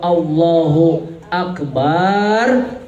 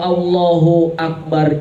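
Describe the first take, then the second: First: The vowel after b in Akbar is drawn out. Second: The b in Akbar is short and plain. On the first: God is a big drum. The speaker calls it wrong. "Allah itu bedug yang besar" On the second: God is the greatest. The speaker calls it right. "Allah Maha Besar"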